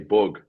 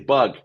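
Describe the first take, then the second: First: The vowel is said in a Dublin accent. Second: The vowel is said in an American accent. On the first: "When you're from Dublin, the U letter is is very pronounced" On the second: "I'd have to nearly put on an American accent"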